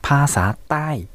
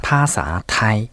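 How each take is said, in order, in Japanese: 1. 最後の音節は下降調です。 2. 最後の音節は平板調です。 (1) "これを無機音にしまして成長もまあ下がる成長に変わる" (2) "平らな成長で、そして有機音で言うとタイ語"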